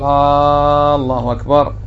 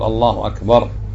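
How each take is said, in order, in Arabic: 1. تُقال هكذا فتبدو سؤالًا. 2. تُقال هكذا فتبدو خبرًا. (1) "ما تقول الله أكبر" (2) "قل الله أكبر"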